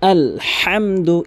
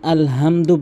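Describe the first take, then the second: First: The h sound is strongly pressed from the throat. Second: The h sound is light and unpressed. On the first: The speaker calls it right. "এভাবে চাপ দিয়ে বলবেন" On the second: The speaker calls it wrong. "কখনোই আলহামদু বলবেন না"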